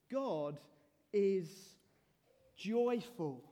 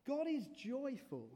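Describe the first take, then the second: First: "God" then "is" then "joyful" each set apart with pauses; slow emphatic pauses. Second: Said in the usual way. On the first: Shown as a demonstration. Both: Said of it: "Here's what may be surprising".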